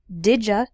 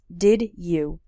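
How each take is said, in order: First: The words are shortened into one blended word. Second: Both words are said clearly and separately.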